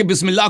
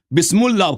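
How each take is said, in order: First: Said in the usual way. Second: بسم اللہ misread as "bismul-lah"; "bismul-lah" for بسم اللہ, as a mock misreading; mispronounced Bismillah. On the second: Shown as a demonstration. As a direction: say بسم اللہ wrongly, with an "u" before the doubled l. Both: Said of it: "آپ نے غلط پڑھی بسم اللہ".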